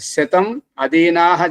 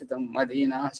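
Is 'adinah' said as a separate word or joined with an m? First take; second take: separate; joined. First: The words are kept apart as 'shatam adinah'. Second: The words run together as 'shatam madinah'. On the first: The speaker calls it right. "విడివిడిగా చదవాల్సింది" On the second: The speaker calls it wrong. "మదీనా అంటే అక్కడ ఆ అర్థమే వేరైపోతుంది"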